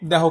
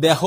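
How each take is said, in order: First: দেহ with a closed 'e' as in 'deho'; correct pronunciation. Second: দেহ with a wide open 'æ' like 'dæho'; mock the wrong দেহ, open vowel; wrong pronunciation. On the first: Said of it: "কেউ কেউ বলো দেহ". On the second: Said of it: "দেহ কেউ বলো না". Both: Shown as a demonstration.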